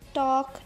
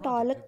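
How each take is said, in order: First: No l sound is heard before the k. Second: An l sound is heard before the k. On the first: The speaker calls it right. "एल की आवाज़ नहीं आ रही" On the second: The speaker calls it wrong. "हम इसको टॉलक नहीं पढ़ रहे"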